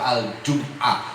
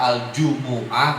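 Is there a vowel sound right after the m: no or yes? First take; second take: no; yes. First: The m is closed with no following vowel. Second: A short u vowel follows the m. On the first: "bisa bersukun" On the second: "Mimnya bisa berdomah"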